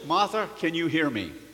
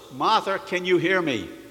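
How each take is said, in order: First: It is said at normal speaking volume. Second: It is said more loudly than normal. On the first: "he said in a normal voice" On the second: "he said in a louder voice"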